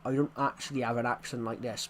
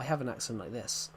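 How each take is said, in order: First: Broader regional British accent; thick local English accent. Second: Said in the usual way. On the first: Shown as a demonstration. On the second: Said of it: "but I have an accent like this".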